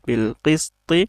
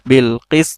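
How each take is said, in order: First: The phrase ends with a final -ti vowel. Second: The phrase ends cut off on the final consonant. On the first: This is the full form read without stopping. "ত জের তি" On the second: The reader stops on this word. "এখানে তয় জজম দিলে কি হবে"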